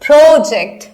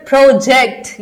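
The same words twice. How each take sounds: First: "project" with a loud, long pro; stress on first syllable. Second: "project" slow and loud, weight on जेक्ट; stress on second syllable. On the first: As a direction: hit pro hard at the start of "project". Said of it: "ये हो गया noun". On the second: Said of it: "ये हो गया verb". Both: Shown as a demonstration.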